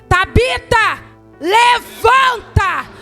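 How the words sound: It is said loudly, with commanding authority.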